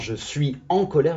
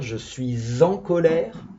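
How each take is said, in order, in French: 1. « Suis » et « en » se disent séparément, sans liaison. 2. Un son z lie « suis » à « en ». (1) "on ne dit pas" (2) "on fait la liaison"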